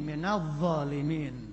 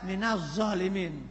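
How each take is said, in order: First: The dh sound is a soft th-like sound. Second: The dh sound is said like a z. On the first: The speaker calls it right. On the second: The speaker calls it wrong.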